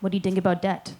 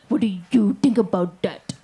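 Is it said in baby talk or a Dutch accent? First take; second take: Dutch accent; baby talk. First: A Dutch accent, with th sounds said as d. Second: A cutesy baby-talk voice mimicking the accent. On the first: "he spoke English with a Dutch accent. So he like pronounced the letters T H as a D" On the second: "why are you talking like that?"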